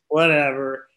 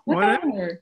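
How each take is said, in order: First: It is said in a dismissive, uncaring tone. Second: It is said in a calm, even, accepting tone. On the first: The speaker does not care about the outcome. "The apathy way is whatever" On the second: The speaker calmly accepts whatever happens. "the neutrality way is, well, whatever"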